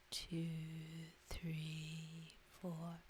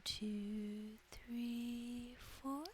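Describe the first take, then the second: First: TWO, THREE, FOUR drawn out low and level; long, low numbers easing downward; counting an out-breath. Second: TWO, THREE, FOUR drawn out, each stepping higher; long held numbers rising in pitch; counting an in-breath. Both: Shown as a demonstration.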